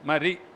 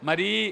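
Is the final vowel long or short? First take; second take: short; long. First: The final vowel is short. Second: The final vowel is long. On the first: The speaker calls it right. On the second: The speaker calls it wrong.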